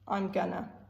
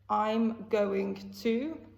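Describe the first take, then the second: First: The to is dropped into gonna. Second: Every syllable is pronounced in full.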